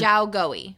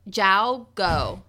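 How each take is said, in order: First: The last word is said as two syllables. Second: The last word is said as one syllable. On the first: The speaker calls it right. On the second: The speaker calls it wrong.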